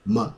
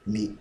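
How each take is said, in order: First: "m" as a short "muh"; schwa middle syllable. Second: "me" with a short "i" sound; "it" vowel. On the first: Teacher contrasting middle syllables, short "muh". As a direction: say "m" with a neutral "uh". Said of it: "the middle syllable has the uh". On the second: Teacher contrasting middle syllables, short "mi". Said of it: "it has the it sound". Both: Shown as a demonstration.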